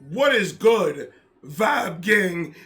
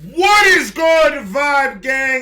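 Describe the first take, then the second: First: It is said flatly, with little energy. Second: It is said enthusiastically, with more energy.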